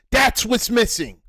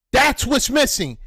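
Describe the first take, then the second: No difference in how they are said.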